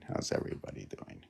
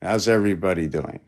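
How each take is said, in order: First: Quick, breathy whispered greeting. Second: Said in the usual way. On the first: Shown as a demonstration. Painter greeting the viewers again in a whisper. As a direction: hush it like a secret hello.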